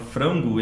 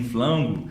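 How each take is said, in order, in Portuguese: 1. A palavra é falada com som de R. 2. A palavra é falada com som de L. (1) "a palavra frango" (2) "eles dizem flango"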